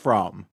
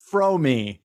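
First: The surname sounds just like 'from'. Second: The surname does not sound like 'from'. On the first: This is how most people say the name. The speaker calls it wrong. "everyone says from" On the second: This is how the person herself says her name. The speaker calls it right. "she says her name"

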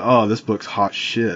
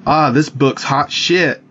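First: It sounds sarcastic and dismissive. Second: It sounds genuinely approving and enthusiastic.

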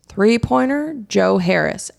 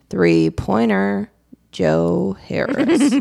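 First: It is said with the most energy. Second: It is said with somewhat less energy.

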